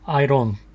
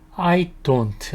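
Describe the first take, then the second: First: The d in don't is a light flap. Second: The d in don't is a clear d. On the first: "D를 리을 발음해서 I don't 이라고 발음하기도 합니다" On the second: "I don't 라고 발음하기도 하고"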